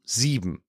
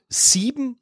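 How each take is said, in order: First: "sieben" lower and softer with a sharp S; "sieben" with a hissed voiceless S. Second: "Sieben" said high with a voiced S; "Sieben" with a buzzing voiced S. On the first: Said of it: "Ich verstehe dein Problem nicht". ("sieben" mit stimmlosem S, leiser) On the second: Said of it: "Ja, warum?". ("Sieben" mit stimmhaftem S, hoch) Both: Shown as a demonstration.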